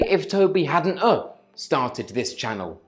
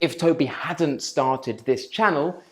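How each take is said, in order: First: An extra schwa sound follows 'hadn't'. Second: No extra vowel sound follows 'hadn't'. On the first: The speaker calls it wrong. "some people add an extra uh, an extra schwa sound in the first clause" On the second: The speaker calls it right. "instead of saying"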